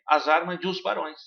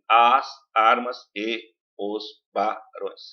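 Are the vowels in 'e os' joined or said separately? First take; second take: joined; separate. First: The vowels of 'e os' are joined together. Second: The vowels of 'e os' are said separately. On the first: It follows the poetic syllable count. "na fala nós falamos assim também" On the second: It follows the grammatical syllable count. "Sílaba gramatical você, você separaria assim"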